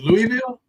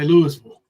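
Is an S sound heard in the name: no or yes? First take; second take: no; yes. First: The name is said without an S sound. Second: The name is said with an S sound. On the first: The speaker calls it right. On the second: The speaker calls it wrong.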